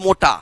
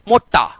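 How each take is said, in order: First: The middle t sound is short and single. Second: The middle t sound is held and doubled. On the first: The speaker calls it wrong. "Not मोटा" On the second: The speaker calls it right.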